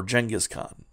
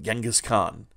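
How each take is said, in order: First: "Genghis" with a soft G, as in "gem"; soft-G pronunciation. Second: "Genghis" with a hard G, as in "get"; hard-G pronunciation. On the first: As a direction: say "Genghis" starting with a j sound, like "Jenghis". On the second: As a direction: say "Genghis" starting with a hard g sound. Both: Shown as a demonstration. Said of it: "not sure how it's pronounced".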